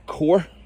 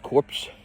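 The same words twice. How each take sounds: First: The word is said the American way. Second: The word is said in a non-American way.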